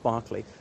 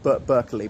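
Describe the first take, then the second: First: The name is said differently from its spelling. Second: The name is said the way it is spelled. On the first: "but pronounced Berkeley" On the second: "I know it looks like Berkeley"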